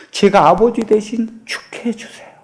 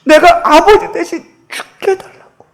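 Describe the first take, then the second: First: A breathy, voiceless whisper of a plea; 속삭이듯 간청. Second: Mute daughter's attempt. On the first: Acted. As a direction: beg him in a whisper. Daughter's plea, whispered take. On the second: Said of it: "근데 그게 말을 못하잖아요".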